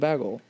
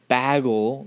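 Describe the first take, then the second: First: The first vowel is said light and soft. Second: The first vowel is said heavy and broad. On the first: The speaker calls it right. "I just kind of say it lighter" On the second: The speaker calls it wrong. "I also don't say bagel. That's so gross"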